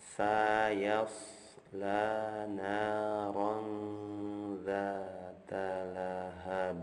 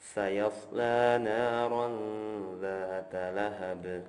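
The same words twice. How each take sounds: First: The phrase is recited slowly and deliberately. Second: The phrase is recited at a smooth, flowing pace. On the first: "Dilambatkan ya" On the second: "Yang ini mengalir saja"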